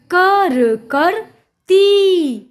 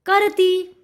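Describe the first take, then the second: First: कर, करती sounded out very slowly in pieces; slow, higher spelling-out of कर, करती; syllable by syllable. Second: Said in the usual way. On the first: Shown as a demonstration. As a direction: stretch each sound of कर, करती with gaps. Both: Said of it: "जोड़कर पढ़ेंगे".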